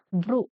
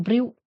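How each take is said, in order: First: "brew" as broo, no glide; correct pronunciation. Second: "brew" with a y glide, bryoo; mistaken pronunciation. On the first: Teacher corrects the word for students, "brew" as broo. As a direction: say "brew" with plain oo. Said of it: "It is brew". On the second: Teacher shows students what to avoid, "brew" as bryoo. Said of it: "not brew". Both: Shown as a demonstration.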